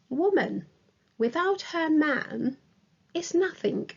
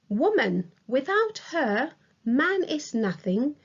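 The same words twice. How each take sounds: First: Pauses come after 'woman' and after 'man'. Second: Pauses come after 'woman' and after 'her'. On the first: "separated by comma after without her man" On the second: "a colon separates woman from without her. Without her is separated from the rest of the sentence with a comma"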